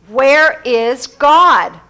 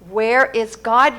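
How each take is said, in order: First: It is said in the strongest, firmest voice. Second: It is said more sternly still.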